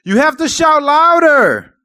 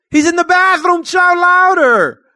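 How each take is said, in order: First: High, loud, slow mockery; high loud scoffing taunt; scoffing shout. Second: High, loud, slow jeering; high loud mocking taunt; mocking shout. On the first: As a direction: taunt them loudly. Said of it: "he scoffed". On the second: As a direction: taunt at full voice. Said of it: "Elijah began mocking them".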